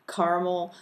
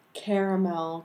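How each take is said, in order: First: Caramel said as KAR-mel, two syllables. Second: Caramel said as KARE-uh-mel, three syllables. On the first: Reading her word list, caramel as KAR-mel. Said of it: "when I say caramel". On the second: Quoting critics, caramel with three syllables. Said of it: "it's caramel, 'cause that's how it's spelled out". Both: Shown as a demonstration.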